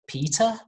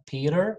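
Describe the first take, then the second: First: It is spoken in a British accent. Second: It is spoken in an American accent.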